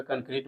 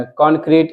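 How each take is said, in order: First: "कंक्रीट" with a short first vowel, "kun-kreet"; Hindi pronunciation. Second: "कंक्रीट" with a rounded first vowel, "kon-kreet"; English pronunciation. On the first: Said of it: "Hindi में कंक्रीट बोलते हैं". ("कंक्रीट" का हिंदी उच्चारण "कंक्रीट") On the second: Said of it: "English में बोलते हैं". ("कंक्रीट" का अंग्रेज़ी उच्चारण "कॉन्क्रीट") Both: Shown as a demonstration.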